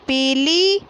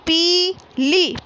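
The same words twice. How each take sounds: First: Said in the usual way. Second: पीली slow, with both ई long; teacher modelling पीली slowly; stretched long ई. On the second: Shown as a demonstration. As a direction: hold each ई in पीली. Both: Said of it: "इस प्रकार पढ़ना है".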